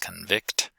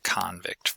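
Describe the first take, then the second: First: The stress is on the second syllable. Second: The stress is on the first syllable. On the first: It is a verb. "stress on the second syllable for the verb" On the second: It is a noun. "stress on the first syllable for the noun"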